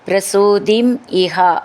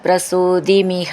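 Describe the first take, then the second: First: The two words are said apart, unlinked. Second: The two words run together as one word.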